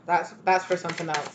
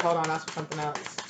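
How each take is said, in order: First: Said in the usual way. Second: Softer, lower, otherworldly aside; voicing Spirit. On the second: Spirit telling the reader to wait, softer lower voice. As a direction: relay the spirit's quiet correction. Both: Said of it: "They said".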